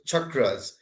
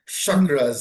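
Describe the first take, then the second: First: The word has its original Sanskrit pronunciation. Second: The word has an Americanized pronunciation.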